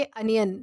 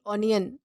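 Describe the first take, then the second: First: अनियन with a short uh start, UN-yun; अनियन, first vowel short and neutral; correct pronunciation. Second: ऑनियन with an open aw start, AW-nyun; the wrong ऑनियन, rounded open first vowel; ऑनियन said aw-nee-un; wrong pronunciation. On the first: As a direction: say अनियन with a schwa, not aw. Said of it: "ना कि ऑनियन". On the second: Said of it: "ऑनियन नहीं कहना इसे". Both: Shown as a demonstration.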